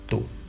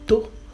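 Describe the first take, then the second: First: The syllable is said on a mid pitch. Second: The syllable is said on a high pitch. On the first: Mortar. "the other one is just mid" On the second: Ear. "there are high tones too"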